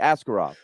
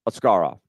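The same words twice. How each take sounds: First: The stress falls off the second syllable. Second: The stress falls on the second syllable. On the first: This is the version the player asked for. "that he wanted to be Askarov" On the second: This is the real Russian pronunciation. "That is where the emphasis is on the second syllable"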